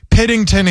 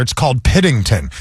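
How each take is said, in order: First: Piddington said alone, higher and punched; deliberate Piddington reveal. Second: Said in the usual way. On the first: Shown as a demonstration. Host presenting the village name to his co-host, punched punchline. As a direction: land Piddington as a punchline, then pause. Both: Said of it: "Pause for a reaction".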